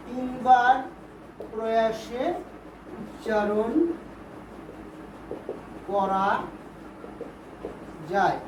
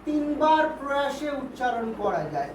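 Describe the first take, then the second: First: Word by word with long pauses; slow dictation. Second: Said in the usual way. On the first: Shown as a demonstration. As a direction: dictate one word at a time, waiting after each. Teacher dictates definition word by word.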